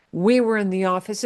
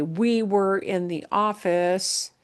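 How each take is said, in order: First: Said in the usual way. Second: Slow example sentence. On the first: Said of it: "It's gonna be that descriptive thing". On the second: Shown as a demonstration. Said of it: "if I just wanna say".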